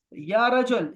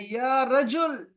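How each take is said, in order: First: Said in the usual way. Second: Slow, stretched, louder "یا رجل" called out high; drawn-out call. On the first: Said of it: "یا رجل کا مطلب ہے بھائی". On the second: Shown as a demonstration. Teacher shows students how to call "یا رجل", slow and loud. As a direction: draw out "یا رجل" slowly like calling a friend. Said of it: "تو آپ نے کہنا ہے".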